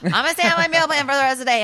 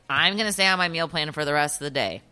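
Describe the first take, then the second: First: It is said at a louder volume. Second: It is said at a normal, quieter volume.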